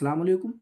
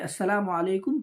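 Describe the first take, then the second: First: The greeting is clipped, dropping the opening syllables. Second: The greeting is said in full, every syllable included. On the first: It is said out of habit, as a mere custom. The speaker calls it wrong. "इस तरह कह देते हैं। तो इस तरह से सलाम अदा नहीं होता है" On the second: The greeting is properly fulfilled. The speaker calls it right. "बल्कि अस्सलामु अलैकुम कहना चाहिए"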